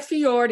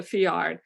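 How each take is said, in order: First: "fjord" said fee-ORD, with an aw. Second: "fjord" said fee-ARD, with an ah; fiard with A. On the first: Guide correcting the likely mishearing, fjord with an aw. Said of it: "as opposed to F J O R D". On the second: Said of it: "F J A R D as opposed to F J O R D". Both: Real, not acted.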